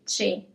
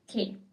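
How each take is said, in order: First: The word begins with a 'ch' sound. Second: The word begins with a 'k' sound. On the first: The speaker calls it wrong. "very tempting for, for example, English speakers to say che" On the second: The speaker calls it right. "It's que. It's always k as a sound"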